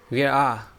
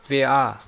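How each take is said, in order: Both takes have the same delivery.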